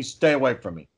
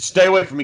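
First: Said in the usual way. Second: Higher, sharper mock snap; snapping at a kid. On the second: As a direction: bark it at the kid fan. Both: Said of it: "And he said".

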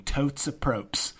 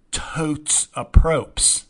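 First: Said in the usual way. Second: Drawn out slow and punchy; catchphrase. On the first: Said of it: "I wish I hadn't said it twice". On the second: Shown as a demonstration. Vlogger coining his own catchphrase, slow and punchy. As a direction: savor the catchphrase slowly. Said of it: "as I like to say".

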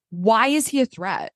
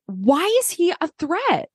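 First: "is" leaned on, level and flat; stress on is. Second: "he" pushed high, disbelieving; stress on he. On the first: Repeating the question to co-host, stress on is. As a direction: land on "is", calmer repeat. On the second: Asking co-host why Sean is a threat, stressing he. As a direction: hit "he" hard, incredulous. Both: Real, not acted. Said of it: "I'm sorry".

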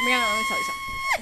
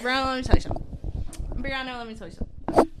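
First: Very high and fast; squeaky high voice. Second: Said in the usual way. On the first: Pretend. Repeated line in varied voices.

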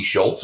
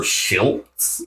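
First: Said in the usual way. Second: "Schiltz" with a short i as in "hit"; short I variant. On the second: Shown as a demonstration. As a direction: say "Schiltz" with a short i, not the vowel of "Schultz". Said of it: "like it has a short I".

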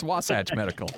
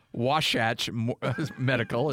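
First: "Wasatch" with a plain s sound; correct pronunciation. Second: "Wasatch" said as Washatch, slowly; wrong pronunciation. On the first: Co-host gives the sponsor's name properly, "Wasatch" with s. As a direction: say "Wasatch" with no sh in the middle. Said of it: "It's Wasatch Medical". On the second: Co-host mocks the sh habit, "Wasatch" as Washatch. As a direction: put a sh in the middle of "Wasatch". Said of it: "It's not Wasatch". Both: Shown as a demonstration.

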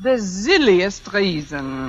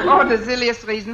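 First: Slow, lower mock-German drawl; put-on German accent. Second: Quick mock-German repeat; put-on German accent. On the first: Fake applicant setting up her excuse, slow put-on German accent. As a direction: draw the words out in a German accent. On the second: Fake applicant dismissing her firing, quick put-on German accent. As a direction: toss it off fast in a German accent. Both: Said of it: "If I can do a decent German accent".

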